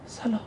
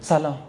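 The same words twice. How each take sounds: First: It is said in a thin, strained voice. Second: It is said in a plain, normal voice. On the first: The person is putting on a show of holiness. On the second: An ordinary person is greeting someone.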